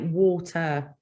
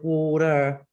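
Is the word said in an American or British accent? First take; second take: British; American. First: It is said in a British accent. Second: It is said in an American accent. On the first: "you can actually hear their British accent really. [name] is one because when he sings, he'll say water" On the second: "instead of water"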